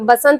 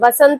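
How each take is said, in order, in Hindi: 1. शब्द b ध्वनि से शुरू होता है। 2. शब्द v ध्वनि से शुरू होता है। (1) "जो प्रोनाउंसिएशन आप लोग करते तो बसंत करते, तो बसंत नहीं होता" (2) "वसंत होता है"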